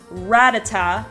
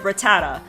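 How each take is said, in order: First: The stress is on the first syllable. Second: The stress is on a later syllable.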